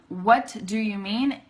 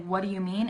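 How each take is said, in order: First: Each word is said separately and carefully. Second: The words run together quickly, reduced.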